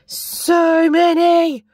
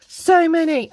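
First: High, slow, louder gush; drawn-out delight. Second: Quicker delight. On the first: Unboxing washi, gushing over the colours, slow and delighted. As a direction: stretch it out in amazement. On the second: Repeated exclamation. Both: Real, not acted.

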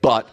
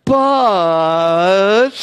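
First: Said in the usual way. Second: "But" stretched very long, pitched high; long drawn-out BUT. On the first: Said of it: "Put a big". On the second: Retold or imitated. Preacher mimicking pastors' big objection, "But" exaggeratedly long. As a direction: draw "But" way out, mocking their big objection. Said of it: "say really long like that".

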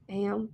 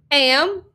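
First: Very soft, meek echo; reluctant repetition. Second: Higher, firm single word; commanding prompt. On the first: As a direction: repeat it faintly, against your will. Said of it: "hated himself, repeated it". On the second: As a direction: dictate it firmly for copying. Bully feeds words to repeat. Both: A narrator's reading.

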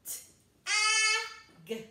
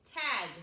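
First: T-A-G as three sounds, the vowel held high and loud; stretched-out sounds. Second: Said in the usual way. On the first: Shown as a demonstration. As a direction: ride up on a long, loud middle sound in T-A-G. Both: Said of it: "That was a really tall ride".

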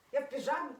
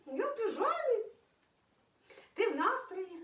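First: Said in the usual way. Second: "Я в піжамі" squeaked much higher, playful cutesy tone; high squeaky baby voice. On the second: Pretend. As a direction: pitch "піжамі" way up like talking for the pet. Repeats phrase, climbing higher. ("Я в піжамі" писклявим високим голоском)

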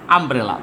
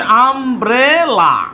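First: Said in the usual way. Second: umbrella drawn out as আম, ব্রে, লা; slow syllable-by-syllable. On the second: Shown as a demonstration. Teacher dictating umbrella as the next example, slow syllables. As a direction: stretch each syllable of umbrella.

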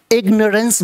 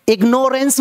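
First: इग्नोरेंस said as "IG-nuh-rence"; इग्नोरेंस with no "nore" in it; correct pronunciation. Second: इग्नोरेंस said as "ig-NORE-ence"; long o in इग्नोरेंस; mispronounced ignorance. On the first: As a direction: say इग्नोरेंस with a short, weak middle syllable. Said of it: "बोलना है". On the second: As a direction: say इग्नोरेंस with a full "nore" in the middle. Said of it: "नहीं बोलना". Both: Shown as a demonstration.

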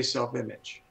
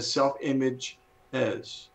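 First: Said in the usual way. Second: "self-image is" slowed, with the final "is" set apart; stress on plural ending. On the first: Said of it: "Notice I didn't say self-image". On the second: Shown as a demonstration. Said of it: "I said self-image is".

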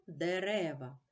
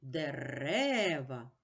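First: Said in the usual way. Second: Дерева very slowly, the second Е held; stress on деРЕва. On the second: Shown as a demonstration. Teacher marking the stress for pupils, very slow and stretched out. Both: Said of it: "Наголос падає на другий голосний".

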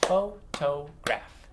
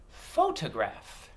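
First: "Photograph" slowly broken into three beats; "Photograph" as separate, evenly spaced syllables. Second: Said in the usual way. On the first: Shown as a demonstration. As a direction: clap out "Photograph" with gaps between syllables. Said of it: "I'm gonna clap out the syllables". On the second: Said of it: "you get to blend it together".

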